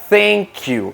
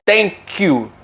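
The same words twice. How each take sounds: First: The first word begins with a breathy th sound. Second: The first word begins with a plain t sound. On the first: The speaker calls it right. "en vez de decir thank you" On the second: The speaker calls it wrong. "muchas veces decimos thank you"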